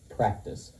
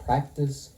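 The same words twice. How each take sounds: First: Breathy whisper on practice, softer; whispered repeat. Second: Said in the usual way. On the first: Shown as a demonstration. [name] drilling Danny, whispered practice. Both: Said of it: "what I've been trying to pound into you".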